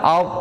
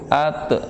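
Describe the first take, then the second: First: The t sound is heavy, tongue back raised. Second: The t sound is light, tongue back not raised. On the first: The speaker calls it right. "Harusnya kan dari awal" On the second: The speaker calls it wrong. "Jadi yang sering terdengar gitu"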